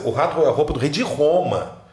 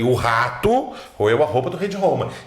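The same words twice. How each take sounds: First: The word Roma carries the emphasis. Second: The word rato carries the emphasis. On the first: Rome is what matters most. "se eu quero priorizar Roma" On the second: The rat is what matters most. "Ele deu uma ênfase no rato"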